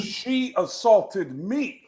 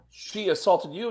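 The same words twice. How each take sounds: First: Slow, high, insistent, every word of "She assaulted me" drawn out; emphatic suspect. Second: Incredulous question with "you" rising at the end; questioning cop. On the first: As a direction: spell out "She assaulted me" slowly, leaning on each word. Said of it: "And he goes". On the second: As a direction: ask it as a cop checking, "you" lifted into a question. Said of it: "And the cop goes". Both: Retold or imitated.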